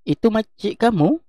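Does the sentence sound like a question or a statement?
question. The pitch goes high at the end, like a question. It asks whether that is the person's aunt. "tapi kalau ayat tanya ada tanda soal"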